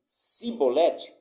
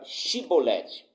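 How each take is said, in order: First: The word begins with a plain s sound. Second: The word begins with an sh sound. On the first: The speaker calls it wrong. "sem conseguir pronunciar corretamente a palavra" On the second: The speaker calls it right. "diga a palavra Shibolete"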